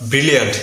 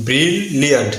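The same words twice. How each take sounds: First: ব্রিলিয়ান্ট short, with one L; wrong pronunciation. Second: ব্রিলিয়ান্ট split as long bril, then liant; correct pronunciation. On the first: Teacher showing what to avoid, single-L mispronunciation. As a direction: say ব্রিলিয়ান্ট unbroken as bri-liant. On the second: Teacher contrasting for learners, correct split bril-liant. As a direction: separate the two Ls in ব্রিলিয়ান্ট. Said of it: "সঠিক উচ্চারণ হবে". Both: Shown as a demonstration.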